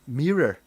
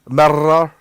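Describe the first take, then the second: First: The R sounds are not rolled. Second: The R sounds are rolled. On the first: "not mirror" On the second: "obviously I'm rolling R's"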